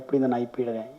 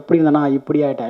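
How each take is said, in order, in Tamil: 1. வரி குறைந்த, இலேசான ஏற்ற இறக்கத்துடன் பேசப்படுகிறது. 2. வரி கனமான, மிகைப்படுத்திய ஏற்ற இறக்கத்துடன் பேசப்படுகிறது. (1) "லைட்டா அந்த மாடுலேஷன் இறங்கிடும்" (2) "இல்ல அவ்வளோ இல்ல கம்மி"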